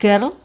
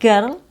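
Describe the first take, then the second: No difference in how they are said.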